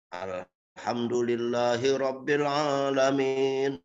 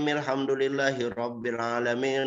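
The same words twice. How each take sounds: First: The vowels are drawn out very long. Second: The vowels are short and the pace quick. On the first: It is recited like in a recitation contest. "bacanya panjang" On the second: This is how most people recite it in tarawih prayers. "Ini namanya tarjil"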